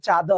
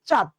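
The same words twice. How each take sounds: First: চাঁদ with an added open vowel after the final d; pronuncia sbagliata. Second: চাঁদ as one short syllable, chad; correct pronunciation. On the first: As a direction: draw out চাঁদ into two syllables, cha-do. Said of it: "না, আমরা কি উচ্চারণ করি?". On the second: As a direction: end চাঁদ on the d with no vowel after it. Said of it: "আমরা কি উচ্চারণ করি?". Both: Shown as a demonstration.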